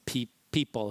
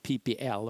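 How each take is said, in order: First: It is said as a single word. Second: It is spelled out letter by letter.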